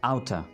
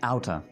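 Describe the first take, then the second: First: The two words are blended into one short word. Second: The same.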